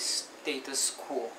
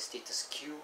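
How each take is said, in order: First: The last word sounds like 'kwoh'. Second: The last word sounds like the letter Q. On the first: The speaker calls it right. "the right way of pronouncing status quo is" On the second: The speaker calls it wrong. "my mind likes to pronounce it as"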